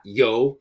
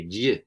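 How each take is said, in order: First: Yo with an English y glide, like yo what's up; wrong English yo. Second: Y said with a buzzing zh sound, close to a z. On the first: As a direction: say yo the American way. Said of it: "it's not yo like yo, what's up". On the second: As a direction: make the y buzz like a z. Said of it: "It's like a z kind of sound". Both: Shown as a demonstration.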